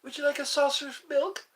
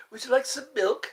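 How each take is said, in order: First: Higher, fast kitten voice. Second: Kitten voice. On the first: Asking about milk in a higher kitten voice. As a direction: offer the milk sweetly as a kitten. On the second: Offering milk in a kitten voice as asked. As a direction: ask like a tiny kitten. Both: Pretend. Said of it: "Try to sound like a kitten".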